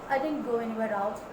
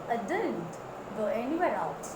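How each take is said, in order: First: The syllable 'did' in didn't is not stressed. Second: The syllable 'did' in didn't is stressed. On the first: The speaker calls it wrong. "Many pronounce it didn't" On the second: The speaker calls it right. "give stress to did"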